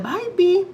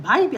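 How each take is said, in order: First: Very high, louder sing-song pet call; cooing pet name. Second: Higher, louder call to a pet; calling the cat. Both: Real, not acted. Calling cat through camera.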